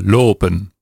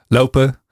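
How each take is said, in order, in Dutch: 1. De o-klinker is zuiver en vast. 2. De o-klinker glijdt zoals een tweeklank. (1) "Als je zo'n 100 jaar geleden opnames hoort van het Nederlands, dan hoor je een O" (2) "Hier in Amsterdam. Au"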